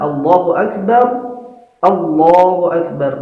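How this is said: A short pause separates the two phrases. "kalau dipisah ... dikasih jeda sedikit"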